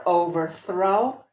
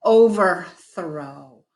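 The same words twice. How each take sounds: First: Slow blended "overthrow". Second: Very slow, drawn-out "overthrow"; slow model word. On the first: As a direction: join the chunks smoothly. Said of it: "We put the two chunks together". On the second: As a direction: say "overthrow" slowly for a learner. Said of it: "try it again with another word". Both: Shown as a demonstration.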